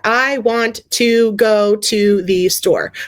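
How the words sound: Each word is said separately.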